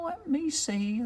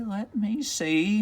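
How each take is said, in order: First: High, soft witch voice pondering; musing witch. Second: Soft witch voice, slower, drawn out; slower musing witch. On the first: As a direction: think aloud as a little witch, higher and softer. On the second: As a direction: stretch it as she keeps searching. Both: Acted. Witch concentrates.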